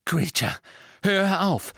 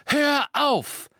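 First: Higher, louder call to stop; urgent shout. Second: Much higher, louder desperate yell of hör auf; frantic, loudest shout. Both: Acted. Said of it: "rief Harry".

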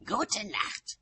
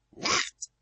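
First: High, falling "Gute Nacht"; high-pitched parting retort; curt farewell. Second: Loud, whispery "Nacht"; voiceless, forceful parting word; curt return farewell. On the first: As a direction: end the quarrel with a high goodnight. Frosty parting after quarrel. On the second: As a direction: throw the goodnight back forcefully without full voice. Other witch's parting shot back. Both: A narrator's reading.

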